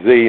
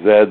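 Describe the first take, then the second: First: The letter is said as zee. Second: The letter is said as zed.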